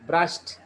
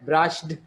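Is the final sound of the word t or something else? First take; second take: t; something else. First: The word ends in a t sound. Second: The word does not end in a t sound. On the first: The speaker calls it right. "It is brushed, br, brushed" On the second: The speaker calls it wrong. "brushed නෙමෙයි"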